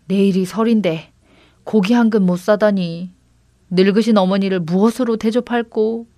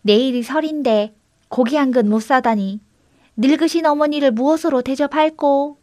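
First: Mild lament over one's lot; a touch of woe. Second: Higher-pitched echo of a lament; mimicking someone's woeful grumble; mimicked lament. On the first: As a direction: bemoan your plight, understated. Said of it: "동생은 신세 타령을 했습니다". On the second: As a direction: copy the lament in a lightly higher voice. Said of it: "똑같은 소리가 들려왔습니다". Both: A narrator's reading.

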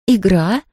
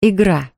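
First: Puzzled echo rising on "Игра?"; Nancy asks back, puzzled; surprised question. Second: Said in the usual way. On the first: Acted. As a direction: maid echoes the strange word, surprised. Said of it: "удивилась девушка". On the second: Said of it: "chapter title read".

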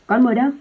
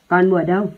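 First: Repeated call, higher and louder; yelling higher. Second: A louder calling-out of a name; shouting a name. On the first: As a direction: yell it again, more pitched up. (gào to hơn, giọng cao hơn) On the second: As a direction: yell across the factory for the girl. (gọi to tên cô gái) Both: A narrator's reading. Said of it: "mồm gào to".

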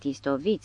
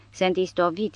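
First: Istovit repeated softer, trailing off; fading softer whine. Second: A touch of exhausted complaint; mild weary whine. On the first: The professor moaning again as his strength fails, fading. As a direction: let the repeated istovit fade, spent. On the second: The professor lamenting in the blizzard, mild weary whine. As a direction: lightly moan that you are worn out. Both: A narrator's reading. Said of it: "se văită profesorul".

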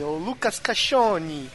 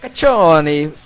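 First: Caccione said as "kaʃoni", slow; pron Caccione. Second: Caccione said as "kat͡ʃoni", Italian ch; pron Caccione. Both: Shown as a demonstration.

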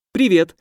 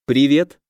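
First: Higher, pushier greeting; insistent repeat. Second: Said in the usual way. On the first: Acted. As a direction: say hello again, demanding an answer. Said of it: "повторила Шизуля".

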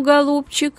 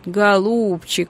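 First: Higher, warm proud praise. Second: Slow, pleading coax. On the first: Father praising his brave daughter, proud. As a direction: beam with pride. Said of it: "с искренним восхищением". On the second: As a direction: gently beg her. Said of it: "просительным тоном начал Василий Савельич". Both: A narrator's reading.

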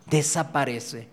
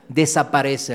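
First: Desaparece drawn out slowly and softer; slow soft echo. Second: Said in the usual way. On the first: Real, not acted. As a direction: let desaparece fade away slowly. Repeated word, slow soft echo.

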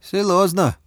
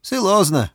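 First: Put-on higher doubtful accented word; doubtful, Chinese accent. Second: Put-on higher accented repeat; doubtful, Chinese accent. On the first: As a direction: Bao doubts in accented Russian. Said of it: "засомневался Бао". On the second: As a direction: Bao repeats in accented Russian. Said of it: "повторил Бао". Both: A narrator's reading.

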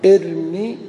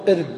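First: ارمي with a louder, clearly sounded final ي; connected form. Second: ارم said clipped with no final vowel, as at a stop; pausal form. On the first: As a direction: voice the final ي of ارمي as if joining the next word. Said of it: "فإذا وصلنا نقول". (ارمي بإظهار الياء عند الوصل) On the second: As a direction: cut ارم short and end on the م. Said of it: "نقول في الأمر ارم". (ارم بالوقف دون ياء في آخرها) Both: Shown as a demonstration.

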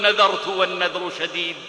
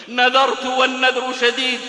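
First: Low, subdued retelling of a weeping vow; retold tearful vow. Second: The weeping vow repeated at a raised pitch; retold insistent vow. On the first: Aisha recalling her vow to those pleading with her, subdued and tearful. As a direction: say it lower, as if held back by tears. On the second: Aisha repeating her vow to those pleading with her, mildly insistent. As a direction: repeat it more insistently, without real crying. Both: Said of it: "وتبكي وتقول".

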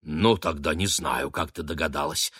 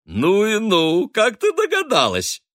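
First: Sighing. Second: High, loud, slow gushing; delighted. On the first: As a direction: let the words sink on a sigh. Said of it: "вздохнула миссис Бернам". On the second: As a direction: gush with glee at the clever girl. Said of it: "радостно подсказала". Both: A narrator's reading.

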